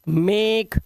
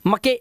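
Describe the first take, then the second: First: It is said as one syllable, 'make'. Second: It is said as two syllables, 'ma-ke'. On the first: The speaker calls it right. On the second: The speaker calls it wrong.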